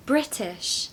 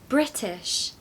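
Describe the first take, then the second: First: The middle T is a clear, soft T. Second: The same.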